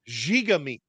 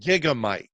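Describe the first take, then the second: First: The last syllable has a short 'i' sound. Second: The last syllable rhymes with 'bike'. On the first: The speaker calls it right. "That is officially how you pronounce it" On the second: The speaker calls it wrong. "It is not Gigamike"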